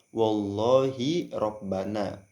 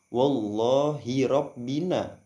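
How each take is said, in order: First: The vowel after rabb is an a sound. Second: The vowel after rabb is an i sound. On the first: The word is read in the accusative case. "dengan nasab" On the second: The word is read in the genitive case. "dengan mengkasrokan keduanya"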